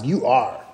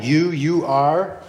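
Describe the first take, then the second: First: Said in the usual way. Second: "you, you are" with the you said twice, slow and deliberate; emphatic doubled pronoun. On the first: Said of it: "Kind of like". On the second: Shown as a demonstration. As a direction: press on the doubled "you", slowly. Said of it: "it's very emphatic".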